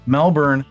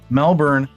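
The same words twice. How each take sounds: First: The R sound is pronounced. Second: The same.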